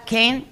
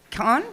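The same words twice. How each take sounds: First: Kane said with a long ay vowel; Kane pronunciation. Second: Kahn said with an open ah vowel; Kahn pronunciation. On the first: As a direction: say Kane like "cane". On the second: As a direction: say Kahn like "kahn", rhyming with "on". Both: Shown as a demonstration. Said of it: "Is it Kane or Kahn".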